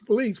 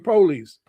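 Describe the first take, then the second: First: The stress is on the second syllable. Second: The stress is on the first syllable. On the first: "in the words police" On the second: "forward stress ... we say police"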